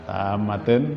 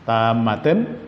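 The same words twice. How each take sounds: First: The word ends with an 'in' sound. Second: The word ends with an 'in' sound.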